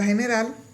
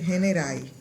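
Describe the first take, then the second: First: The word ends with a clear L sound. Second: The final L is replaced by an I sound. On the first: "en la palabra general" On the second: "dicen generai"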